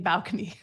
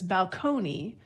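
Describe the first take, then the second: First: The stress is on the first syllable. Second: The stress is on the second syllable. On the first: This is the anglicized pronunciation. "we often move the stress to the first syllable" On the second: This is the original Italian-style pronunciation. "the stress was on the second syllable"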